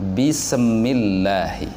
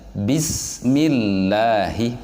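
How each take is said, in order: First: The s is released with an echoing bounce. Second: The s is held smoothly without any bounce. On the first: The speaker calls it wrong. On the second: The speaker calls it right.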